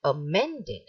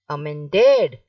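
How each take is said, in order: First: "amended" with MEN lifted, ending falling: a-MEN-ded; correct middle stress. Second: "amended" with DED loud and stretched: amen-DED; wrong last-syllable stress. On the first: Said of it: "You will stress". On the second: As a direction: punch the final DED of amended. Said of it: "it is wrong". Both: Shown as a demonstration.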